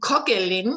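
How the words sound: It is said with a German pronunciation. "in German they will say kogelin"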